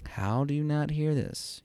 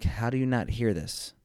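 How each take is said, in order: First: Aim it hard at the listener, pitched up; intense inner plea. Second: Mildly exasperated disbelief; incredulous inner voice. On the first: Husband focusing all his energy on his wife, intensely incredulous. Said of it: "I'm focusing all my energy". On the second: Husband thinking at his wife, mildly incredulous. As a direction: wonder at it in your usual pitch. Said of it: "in my head, I'm like". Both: Retold or imitated.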